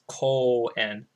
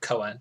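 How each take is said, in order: First: The first vowel is held long. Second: The first vowel is kept short. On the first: The speaker calls it right. "there's a a u like uh syllable afterwards" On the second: The speaker calls it wrong. "It's not just like koen"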